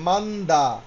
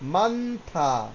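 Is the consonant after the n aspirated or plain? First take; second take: plain; aspirated. First: The consonant after n is a plain d. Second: The consonant after n is an aspirated t. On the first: The speaker calls it wrong. "তাই হওয়ার কথা ছিল কি মান্দা" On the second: The speaker calls it right. "দ্বিগুতটা থয়ের মতো হয়ে গেছে মান্থা"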